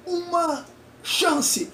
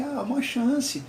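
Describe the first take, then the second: First: Very high and very slow, "uma chance" stretched out stiffly word by word; mechanical examiner voice. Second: Higher, slow pleading for uma chance; a hint of the sobbing student begging the examiner; mock tearful plea. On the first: Retold or imitated. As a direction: say "uma chance" like a robot weighing each word. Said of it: "bem mecânico". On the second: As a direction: beg for "uma chance" like a crying teen, lightly imitated. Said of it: "Ela começou a chorar".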